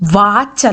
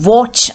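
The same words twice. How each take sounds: First: It starts with an unrounded 'v' sound. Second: It starts with a lip-rounded 'w' sound. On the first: The speaker calls it wrong. "വാച്ച് അല്ല" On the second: The speaker calls it right. "you round your lips"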